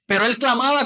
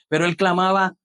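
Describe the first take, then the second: First: Calling it out high; emphatic cry. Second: Said in the usual way. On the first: Shown as a demonstration. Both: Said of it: "¿cómo?".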